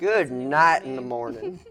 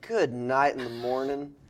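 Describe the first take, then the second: First: It is said in a country accent. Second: It is said in the speaker's ordinary accent.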